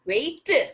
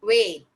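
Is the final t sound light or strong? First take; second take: strong; light. First: The final t is released strongly and hard. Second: The final t is released lightly and softly. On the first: The speaker calls it wrong. "हम वेट नहीं बोलते" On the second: The speaker calls it right. "Last में जो टी होता है उसको हल्का सा ऐसे बोल के छोड़ते हैं"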